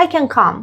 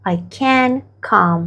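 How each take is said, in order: First: Said in the usual way. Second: Very slow, each word spaced out; slow model phrase. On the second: Shown as a demonstration. Teacher repeating the phrase very slowly for students. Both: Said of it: "و تو میگی که".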